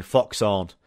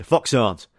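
First: Fox Haunt said slowly with every sound clear; clear southern-friendly. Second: Fox Haunt in a Yorkshire accent, the final T barely there. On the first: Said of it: "People down south don't have a clue what I'm saying". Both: Shown as a demonstration.

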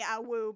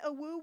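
First: Louder, lustier wolf howl; a flirty, eager howl; horny awoo. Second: Mournful little wolf howl; sad awoo. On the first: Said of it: "different from a horny". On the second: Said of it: "everyone does a sad". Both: Retold or imitated.

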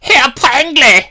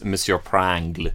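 First: Put-on loud, camp German accent, very high; slow, squealed mock-German exclamation; high-pitched German. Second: Frenchified name, lightly put on; playful French pronunciation; French accent. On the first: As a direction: shriek it in a hammed-up German accent. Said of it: "Your German is always so high-pitched". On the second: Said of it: "he's French".

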